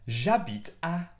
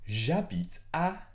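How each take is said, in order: Both takes have the same delivery.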